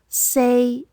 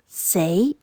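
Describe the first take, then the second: First: The pitch stays level without rising. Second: The pitch rises toward the end. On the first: It means the number four. "one is in tone three, which is the number four" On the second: It means to die. "it's in tone two with a rising tone"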